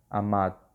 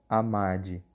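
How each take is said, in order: First: The final d is cut short, without a vowel. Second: The final d is followed by a vowel. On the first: The speaker calls it right. "a gente não termina de pronunciar essa D" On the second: The speaker calls it wrong. "vocês não vão fazer que nem no português"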